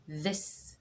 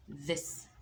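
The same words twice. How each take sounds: First: "This" with a voiced th, tongue out; teacher modelling English "This"; th word. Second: A softer repeat of "This"; quieter repeat. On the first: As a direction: say "This" with the th sound. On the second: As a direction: repeat "This" gently. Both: Shown as a demonstration. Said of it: "طلعت لساني".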